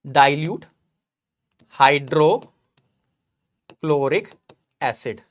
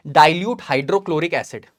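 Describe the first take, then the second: First: dilute, hydrochloric, acid spaced out with long pauses; word-by-word dictation. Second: Said in the usual way. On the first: Real, not acted. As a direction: draw out hydrochloric with a rising end, then drop low on acid. Dictates word by word while writing.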